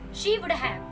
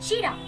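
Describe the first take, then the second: First: All three words are said fully and separately. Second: The words are shortened and run together.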